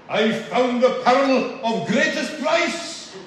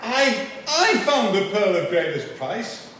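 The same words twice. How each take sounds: First: Loud, slow Glaswegian preacher, pitched high; strong Glaswegian, raised and drawn out; Glaswegian accent. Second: Said in the usual way. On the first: Retold or imitated. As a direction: imitate a fervent Glasgow evangelist's accent. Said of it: "apologise in advance for attempting his accent". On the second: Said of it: "So to be interpreted, it means".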